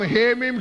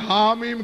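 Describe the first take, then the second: First: The first letter name has an 'e' vowel. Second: The first letter name has an 'a' vowel. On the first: This is how Urdu speakers say it. "हम हे मीम कहते हैं" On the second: This is how Arabic speakers say it. "अरबी में हा मीम कहते हैं"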